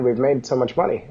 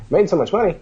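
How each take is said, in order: First: Said in the usual way. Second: Higher, rising disbelief; mock-stunned question; incredulous echo. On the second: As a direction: echo it back, can't believe it.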